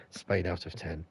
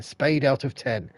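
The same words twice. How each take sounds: First: Said in the usual way. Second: Spade said slow and louder, falling; drawn-out verdict, Spade hit hard; lightly hammed-up score; slow emphatic rating. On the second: Shown as a demonstration.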